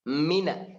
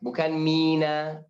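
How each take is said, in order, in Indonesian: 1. Vokal pertama pendek. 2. Vokal pertama dibaca panjang. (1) "Gak ada ya, gak ada alif" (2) "Jangan mi, itu ada alif"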